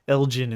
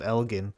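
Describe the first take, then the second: First: The G is soft, like a J. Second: The G is hard, like in go. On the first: The speaker calls it wrong. "pronounce it with a soft G" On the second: The speaker calls it right. "instead of"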